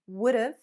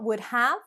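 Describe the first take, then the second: First: Have is shortened to a v sound. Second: Have is pronounced in full as a separate word. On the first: "or even would've" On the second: "Not would have"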